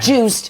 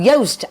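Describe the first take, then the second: First: The vowel does not rhyme with toast. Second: The vowel rhymes with toast. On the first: The speaker calls it wrong. "but it's no" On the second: The speaker calls it right. "Joost as in toast"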